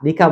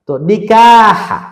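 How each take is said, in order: First: নিকা said quickly without the final হা; wrong version. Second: Slow, loud নিকাহা with the final হা sounded out; clear final ha. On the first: Teacher showing students the mistaken form, plain and quick. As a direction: drop the closing হা in নিকা. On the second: Teacher to students showing the right word, slow and emphatic. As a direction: stretch নিকাহা and voice the closing হা. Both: Shown as a demonstration. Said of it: "নিকা বলে না".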